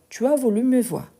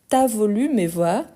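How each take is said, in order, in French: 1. La voyelle de 'tu' est entièrement prononcée. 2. La voyelle de 'tu' est supprimée.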